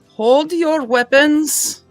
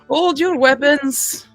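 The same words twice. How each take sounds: First: It is said in the speaker's ordinary accent. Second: It is said in a put-on French accent.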